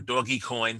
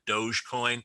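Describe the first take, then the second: First: The first part sounds like the word doggy. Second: The first part sounds like the word doge. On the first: "for telling me the correct pronunciation about it" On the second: "I would call it Dogecoin after the uh, rulers of uh, medieval Venice"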